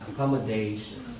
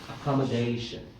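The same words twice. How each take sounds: No difference in how they are said.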